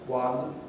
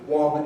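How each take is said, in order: First: It is said with a southern English vowel. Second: It is said with a northern English vowel. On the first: It is heard in other places. "found in other places" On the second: It is heard only in the north. "a pronunciation found only in the north of England"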